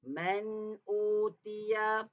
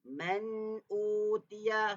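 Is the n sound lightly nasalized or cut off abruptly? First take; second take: nasal; nasal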